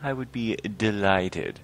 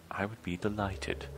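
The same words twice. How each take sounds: First: Slow, drawn-out mock delight; possibly sarcastic. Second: Soft, subdued acceptance; quiet polite reply. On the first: Troll with no choice accepts joining the committee, mildly sarcastic. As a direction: accept with slightly overdone politeness. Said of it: "I don't know if that is sarcasm". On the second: Acted. Troll accepts the invitation to the library, quiet and polite. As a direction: answer politely under the breath. First read of dialogue option.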